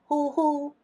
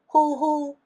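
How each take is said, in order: First: The syllables are said on a level high tone. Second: The syllables are said on a level high tone.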